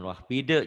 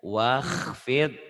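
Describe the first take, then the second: First: An extra vowel is added after the final consonant. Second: The word ends cleanly on the final consonant. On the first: The speaker calls it wrong. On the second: The speaker calls it right.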